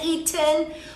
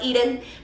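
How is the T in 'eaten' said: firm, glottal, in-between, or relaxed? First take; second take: firm; in-between. First: The T is said with a firm, clear release. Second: The T is neither fully firm nor fully relaxed. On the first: "con la T firme" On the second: "como algo en medio, ni tan formal ni tan casual"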